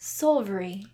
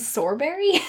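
First: The middle consonant is pronounced as a V. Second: The middle consonant is pronounced as a B. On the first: The speaker calls it right. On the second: The speaker calls it wrong.

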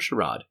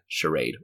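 First: It is said with a British pronunciation. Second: It is said with an American pronunciation.

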